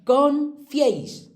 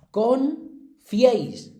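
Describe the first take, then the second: First: Confiéis said slowly and high, the ié held together in one syllable; the correct version, slow and emphatic; correct pronunciation. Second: Confiéis drawn out as con-fi-éis, slow; the mistaken syllable split, stretched out slowly; wrong split. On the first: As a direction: stretch out confiéis slowly, high and loud, as a single syllable fié. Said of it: "Pues no". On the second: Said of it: "que la mayoría diría confiéis". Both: Shown as a demonstration.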